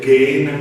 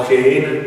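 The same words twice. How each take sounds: First: "Gehenna" opening on a hard g or k sound. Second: "Gehenna" opening on a Spanish j sound; soft-G Gehenna. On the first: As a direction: start "Gehenna" with a hard "gue". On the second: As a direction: start "Gehenna" with a throaty h, "je". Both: Shown as a demonstration. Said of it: "así puede decirse Gehenna".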